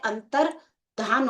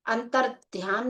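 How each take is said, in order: First: अंतर धान with no y glide; correct form with -dhan. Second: अंतर ध्यान with a y glide after dh; wrong form with -dhyan. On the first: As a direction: say अंतर धान with plain "dhaan" as its ending. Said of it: "अंतर धान होता है". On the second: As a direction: say अंतर ध्यान with "dhyaan" as its ending. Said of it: "नहीं होता है". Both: Shown as a demonstration.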